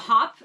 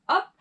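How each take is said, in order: First: The word begins with an audible h sound. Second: The word begins with a vowel, no h sound. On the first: The speaker calls it wrong. "don't think of it as a hop" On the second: The speaker calls it right. "because we don't pronounce the H, but up"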